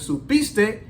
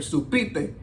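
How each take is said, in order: First: The s sound before the t is pronounced. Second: The s sound before the t is dropped. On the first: "instead of saying supiste" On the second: "they cut the S's"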